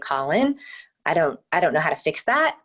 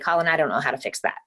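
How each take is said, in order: First: The voice rises at the end of the sentence. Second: The voice falls at the end of the sentence. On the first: It sounds unsure, like a question. The speaker calls it wrong. "if I'm going to say" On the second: It sounds like a confident statement. The speaker calls it right. "with your intonation ending on a down note"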